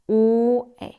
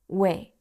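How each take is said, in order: First: Two vowels are said as separate sounds. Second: Two vowels glide together into one syllable. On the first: "mixed up version with u and e sound" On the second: "it becomes we"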